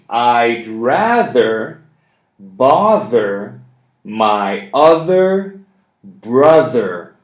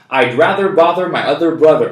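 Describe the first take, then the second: First: The sentence is spoken slowly. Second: The sentence is spoken very fast. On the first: "One more time. Slowly" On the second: "And even faster"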